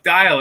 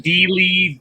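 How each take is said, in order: First: The name is said to rhyme with 'dial'. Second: The name is said like 'Dealey', two syllables. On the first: The speaker calls it right. "look, the sundial, like dial" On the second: The speaker calls it wrong. "I get so many different ones"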